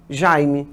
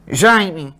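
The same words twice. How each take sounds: First: "Jaime" low, as open oral "jai-mi"; without nasalization. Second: "Jaime" low, as nasal "jãi-mi"; nasalized. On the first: Teacher labels the other variant, without nasalization. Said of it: "sem nasalização". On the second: Teacher labels the variant for students, nasalized. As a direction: say "Jaime" with the "ai" through the nose. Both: Shown as a demonstration.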